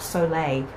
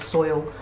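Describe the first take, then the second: First: It is said in two syllables, like so-lay. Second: It is said in one syllable, like soil. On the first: The speaker calls it right. "I can say this" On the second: The speaker calls it wrong. "I was saying soil"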